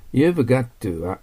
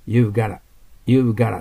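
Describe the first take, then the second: First: "You've got to" said slowly with every word distinct, the t of got to sounded; full form, slowly. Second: "You've gotta" run together, got to flapped into gotta; reduced form. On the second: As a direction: clip "You've gotta" the way Americans say it, quick and linked. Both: Shown as a demonstration. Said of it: "you've gottaってなります".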